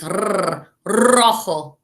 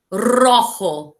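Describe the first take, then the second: First: "R, rojo" with the R trilled hard, tongue rolling; rolled R. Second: Said in the usual way. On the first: Shown as a demonstration. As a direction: roll the R in "rojo" like a Spanish teacher showing it. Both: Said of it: "Make sure you roll your R's like this".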